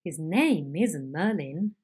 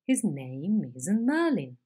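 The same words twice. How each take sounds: First: A series of falls, each accent starting lower; slow, emphatic sliding fall; sliding head. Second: Slow, emphatic climbing tune; climbing head. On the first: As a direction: slide down on every stressed word of "His name isn't Merlin". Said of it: "it would sound like this". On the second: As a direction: climb up on every stressed word of "His name isn't Merlin". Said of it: "it sounds like this". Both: Shown as a demonstration.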